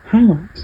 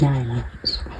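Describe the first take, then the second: First: The h sound at the start is clearly pronounced. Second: The h sound at the start is left out. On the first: "we could have highlights and get me each in one place" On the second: "I'd be dropping the H's like I usually do"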